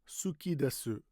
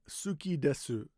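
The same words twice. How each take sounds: Both takes have the same delivery.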